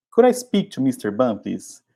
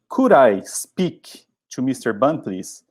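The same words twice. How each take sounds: First: Said in the usual way. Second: Slow, clear model sentence for learners; slow model phrase. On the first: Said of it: "Lembrem sempre". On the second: Shown as a demonstration. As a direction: read it slowly for the class to copy. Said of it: "Você pode ir na lata direto".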